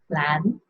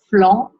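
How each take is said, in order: First: The vowel is plain, without nasal sound. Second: The vowel is nasal, with an open mouth. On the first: The speaker calls it wrong. "Make sure you don't say flan" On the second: The speaker calls it right. "Nice and nasally and open your mouth"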